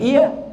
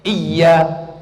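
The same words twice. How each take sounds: First: The y sound is short. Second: The y sound is held long. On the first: The speaker calls it wrong. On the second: The speaker calls it right.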